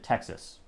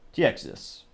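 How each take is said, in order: First: The word is said in a plain, flat way. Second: The word is said in a lively, exaggerated way. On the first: The speaker calls it wrong. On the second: The speaker calls it right.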